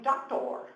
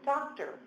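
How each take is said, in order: First: The last syllable has a full 'or' vowel. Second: The last syllable has a reduced 'er' vowel. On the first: The speaker calls it wrong. "I might go around saying doctor" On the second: The speaker calls it right. "instead of doctor"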